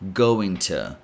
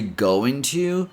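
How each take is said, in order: First: The vowel in to is a weak schwa. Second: The word to has a full, clear o vowel. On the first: "change the O sound in to to a schwa sound" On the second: "you can say going to"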